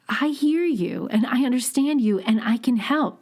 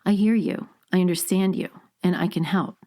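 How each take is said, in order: First: It is said with a smile, brighter voice. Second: It is said without a smile, deeper and lower.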